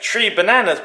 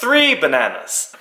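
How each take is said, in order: First: Three is said with a t sound, Guyanese-style. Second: Three is said with a th sound.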